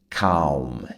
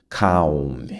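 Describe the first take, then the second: No difference in how they are said.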